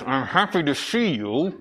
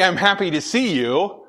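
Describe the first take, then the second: First: It is said coldly, without warmth. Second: It is said warmly, with a smile. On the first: The speaker is not really glad to see the listener. "if I go like this, ... you're going to have a different perception" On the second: The speaker is glad to see the listener. "with a smile like that, people would be like, oh, okay, he's being friendly"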